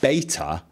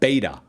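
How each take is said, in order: First: The middle consonant is a crisp T sound. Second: The middle consonant is a soft D sound. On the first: "I don't hear you say beta" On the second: "I hear a D sound. Very, very soft T"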